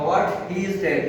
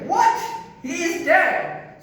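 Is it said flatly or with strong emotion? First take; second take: flatly; strong emotion. First: It is said flatly, without strong emotion. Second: It is said with strong, exclaiming emotion.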